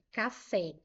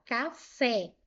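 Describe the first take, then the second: First: Said in the usual way. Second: "Café" as two separate syllables, ca, fé; split into syllables. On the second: Shown as a demonstration. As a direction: separate "Café", landing firmly on the final fé. ("Café" separando as sílabas, com fé mais forte) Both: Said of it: "Ó, vou separar".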